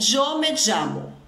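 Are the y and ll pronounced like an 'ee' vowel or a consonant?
consonant. The y and ll sound like a consonant.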